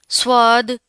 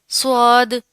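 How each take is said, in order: No difference in how they are said.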